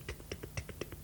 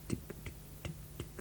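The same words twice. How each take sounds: First: The ticks follow each other quickly. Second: The ticks follow each other slowly. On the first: Time passes at a big-city pace. "nicht so" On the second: Time passes leisurely. "Also sehr gemütlich"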